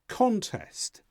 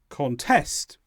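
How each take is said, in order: First: The stress is on the first syllable. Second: The stress is on the second syllable. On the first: It is used as a noun. "When they are noun forms, they tend to be stressed on the first syllable" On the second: It is used as a verb. "Contest becomes contest"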